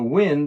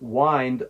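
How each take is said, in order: First: The vowel is a short I sound. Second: The vowel is a long I sound. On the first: Moving air outdoors. "This is the short I sound" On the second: To twist or turn something. "This uses the long I sound"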